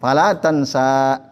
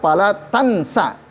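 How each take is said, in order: First: The final vowel of tansa is drawn out long. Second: The final vowel of tansa is cut short. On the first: The word is written with a final alif maksurah so it rhymes with the verses around it. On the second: It is a prohibition meaning do not forget. "harusnya fala tansa, enggak panjang"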